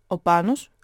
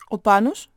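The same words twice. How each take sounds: First: Frowning question. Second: "Πάνος" louder with a sharp rise; questioning. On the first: Grandfather asks after Πάνος, frowning question. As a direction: ask it with lowered brows. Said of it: "ρώτησε κι αυτός κατεβάζοντας τα φρύδια". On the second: Relatives arriving ask after Πάνος, "Πάνος" rising sharply. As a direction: ask "Πάνος" brightly upward, as a query. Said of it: "ρωτούσαν". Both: A narrator's reading.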